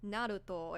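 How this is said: The name is said with a Japanese pronunciation.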